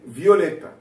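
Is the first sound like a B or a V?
V. The first sound is a clear V.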